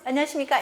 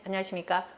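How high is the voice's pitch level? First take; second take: highest; low. First: It is said at the highest pitch level. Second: It is said one step higher in pitch. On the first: "솔" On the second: "레"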